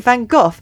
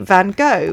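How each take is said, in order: First: The name is pronounced the British way. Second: The name is pronounced the American way. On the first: This is how people in the UK say it. "You say Van Gogh" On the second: This is how people in America say it. "In America, we say Van Gogh"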